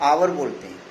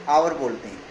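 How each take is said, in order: No difference in how they are said.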